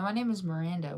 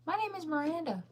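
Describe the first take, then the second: First: Said in the usual way. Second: Name repeated in a high, squeaky put-on voice; high-pitched mock insistence. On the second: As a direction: say it way up high, playfully.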